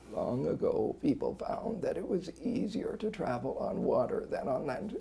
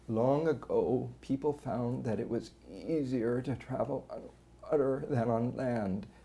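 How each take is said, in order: First: Strained voice with a rough, gravelly quality. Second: Strained voice with squeezes and brief voice stoppages. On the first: "A strain that's got more gravel in it"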